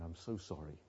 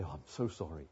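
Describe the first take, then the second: First: Soft apology. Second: Missus Vine apologizing. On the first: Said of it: "ring Missus Vine up and say". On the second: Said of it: "she used to ring me up and say". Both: Retold or imitated.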